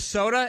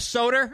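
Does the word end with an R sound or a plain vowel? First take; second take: plain vowel; R sound. First: The word ends with a plain vowel sound. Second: The word ends with an added R sound. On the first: This corrects the relatives' version. The speaker calls it right. "you mean a soda? It has an A" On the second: This imitates how older relatives say it. The speaker calls it wrong. "My grandparents would say that"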